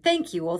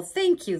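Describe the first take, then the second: First: Loud thankful cry; grateful cry. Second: High, loud gushing thank you; grateful cry, higher. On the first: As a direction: gush thanks. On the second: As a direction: lift thank way up. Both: Acted. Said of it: "the grateful witch cried".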